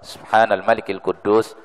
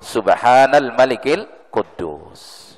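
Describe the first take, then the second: First: The phrase is said at a normal, quieter volume. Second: The phrase is said with a raised, louder voice.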